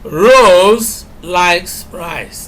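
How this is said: The word Rose is stressed. It is this person, not someone else, who likes it. "here we are emphasizing Rose"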